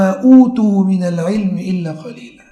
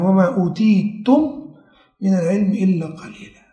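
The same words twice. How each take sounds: First: อูตู read with u, "วะมาอูตูมินัลอิลมิอิลลากะลีลา" recited evenly; their reading. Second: อูตีตุม with the ending ตุม, recited softly; our reading. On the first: Teacher showing al-A'mash's reading to the class, recited. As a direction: say อูตู, not อูตีตุม, in the verse. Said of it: "อ่านอย่างนี้". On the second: Teacher giving the standard reading to his students, recited softly. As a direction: say "วะมาอูตีตุม" with the full ตุม. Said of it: "แต่ในกุรอานที่เราอ่าน". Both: Shown as a demonstration.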